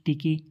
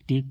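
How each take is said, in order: First: The final e is sounded after the k. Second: The word ends on a plain k sound. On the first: The speaker calls it wrong. "टेके ऐसे नहीं पढ़ते" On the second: The speaker calls it right. "टेक पढ़ते हैं"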